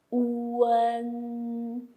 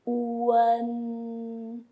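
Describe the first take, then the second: First: Uen with the u fully sounded; careful model uen; Mandarin final uen. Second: Uen again with the u fully sounded; careful model uen; Mandarin final uen. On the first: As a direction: pronounce the bracketed u in uen. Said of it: "you got to pronounce what is in the bracket". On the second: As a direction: repeat uen slowly and clearly. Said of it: "Okay, I repeat". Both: Shown as a demonstration.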